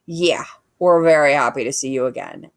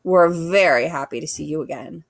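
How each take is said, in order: First: Little brother bear echoing his sister. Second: A sister bear's sarcastic greeting to the robot; dripping sarcasm. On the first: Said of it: "echoed the brother bear". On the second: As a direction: say it sweet but mean it the opposite. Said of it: "Her voice dripped with sarcasm". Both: A narrator's reading.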